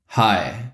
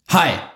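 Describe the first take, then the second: First: The greeting is calm and effortlessly confident. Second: The greeting is pushed out with forced effort. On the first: The greeting comes from inner power. The speaker calls it right. "Oder aus der Power" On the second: The greeting comes from force. The speaker calls it wrong. "Und ich sage es aus der Force"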